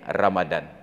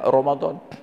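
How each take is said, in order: First: The vowels are said as clear a sounds. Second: The vowels are said as dark o sounds. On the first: "tertulis R A M A D A N" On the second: "Tapi dibaca Ramadan"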